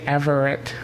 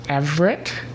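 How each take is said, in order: First: The name is said in three syllables. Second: The name is said in two syllables. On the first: The speaker says it this way. "I tend to say Everett with three syllables" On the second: Other people say it this way. "I have heard people pronounce it as Everett with two syllables"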